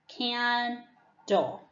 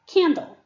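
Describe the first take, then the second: First: The word is said slowly, syllable by syllable. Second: The word is said quickly as one whole word. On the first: "I'm going to give you the syllable slowly" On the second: "Tell me the word fast"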